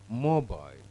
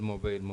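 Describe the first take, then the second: First: The stress falls clearly on the first syllable. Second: Both syllables get roughly even stress. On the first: The speaker calls it right. "The stress is on the first syllable" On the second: The speaker calls it wrong. "the word which we said mobile"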